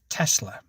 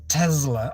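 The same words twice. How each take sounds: First: The middle consonant is an S sound. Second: The middle consonant is a Z sound. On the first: The speaker calls it right. "There's no Z in it. It's Tesla" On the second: The speaker calls it wrong. "she pronounced it"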